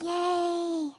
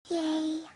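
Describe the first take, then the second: First: It is said very loudly. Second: It is said quietly and weakly.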